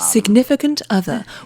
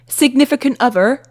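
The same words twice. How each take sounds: First: It is said in a general British accent. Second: It is said in a West Country Bristol accent. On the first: "your British accent" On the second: "That's a different one. ... Bristol where people talk more like this"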